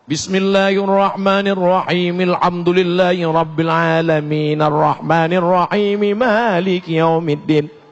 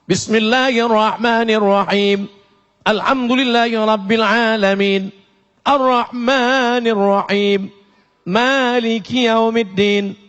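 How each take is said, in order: First: The verses run together without stopping between them. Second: Each verse ends with a full stop before the next. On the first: "Kalau wasal" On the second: "Itu namanya wa wakaf"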